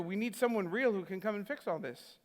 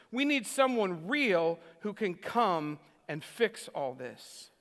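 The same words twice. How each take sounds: First: Said in the usual way. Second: Slow and deliberate, dropping low on "all this"; slow, weighty quote. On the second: Retold or imitated. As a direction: quote it gravely, word by word, sinking at the end.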